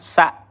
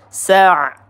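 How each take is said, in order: First: The final consonant stops abruptly like a catch. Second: The final consonant flows on slightly. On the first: The speaker calls it wrong. "bukan sa'. Hati-hati tertukar dengan huruf hamzah" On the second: The speaker calls it right. "Kita alirkan sedikit suaranya sa' ya"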